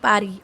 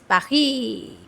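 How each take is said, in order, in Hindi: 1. इसका उच्चारण गैर-फ़्रेंच तरीके से किया गया है। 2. इसका उच्चारण वैसे किया गया है जैसे फ़्रेंच लोग इसे बोलते हैं। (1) "Do not pronounce it Pari Pari" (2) "Pronounce it like French people"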